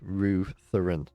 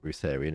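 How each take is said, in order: First: The first syllable sounds like Ruth. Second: The first syllable does not sound like Ruth. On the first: The speaker calls it right. "It's like Ruth, Rutherin" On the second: The speaker calls it wrong. "It's not Rutharian, is it?"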